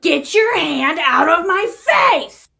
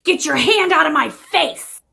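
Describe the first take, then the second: First: High, very slow, emphatic demand; escalated warning. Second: Higher, drawn-out irritated demand; a first firm, acted warning; annoyed warning. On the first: Acted. Woman repeating her ignored warning, slow and outraged. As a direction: stretch every word in acted outrage. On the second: Woman warning someone blocking her face, annoyed.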